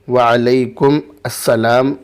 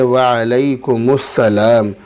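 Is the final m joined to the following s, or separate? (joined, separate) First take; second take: separate; joined. First: The m and the s are said separately. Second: The m runs straight into the s. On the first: The speaker calls it wrong. "वालेकुम अस्सलाम नहीं कहेंगे" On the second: The speaker calls it right. "यानी मीम को सीन में मिलाएंगे"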